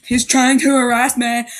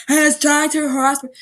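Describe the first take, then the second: First: Said in the usual way. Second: Higher, whinier repeat of He's trying to harass me; mock outrage. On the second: Macy repeating her complaint with hammed-up outrage. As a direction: ham up the complaint.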